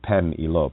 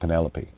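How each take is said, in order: First: It is split into two words, pen and elope. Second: It is said as one ordinary four-syllable name. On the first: "Pen meaning mind, elope, to be wed" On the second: "you might pronounce it Penelope"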